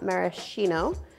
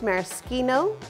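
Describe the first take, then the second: First: The middle consonant is a soft sh sound. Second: The middle consonant is a hard k sound. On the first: The speaker calls it wrong. "not maraschino" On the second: The speaker calls it right. "it is pronounced maraschino ... C H is pronounced K"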